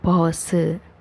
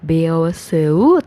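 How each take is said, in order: First: The first vowel is said as a single o. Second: The first vowel is said as e-o. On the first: The speaker calls it right. "tapi jadinya pause" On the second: The speaker calls it wrong. "Dibacanya bukan beoseu"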